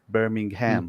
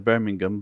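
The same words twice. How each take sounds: First: It is said with an American pronunciation. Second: It is said with a British pronunciation. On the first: "in America, you would say Birmingham" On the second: "in England, ... We would say Birmingham"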